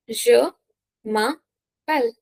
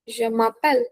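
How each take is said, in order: First: Slow "Je m'appelle", split into syllables; slow dictation of "Je m'appelle"; word by word. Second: Said in the usual way. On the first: Shown as a demonstration. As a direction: pause between each piece of "Je m'appelle". Teacher breaks phrase up for learners.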